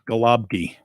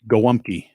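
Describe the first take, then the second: First: The word is read letter by letter. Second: The word has its Polish pronunciation. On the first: "it's not spelled like it sounds" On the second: "How do you say it?"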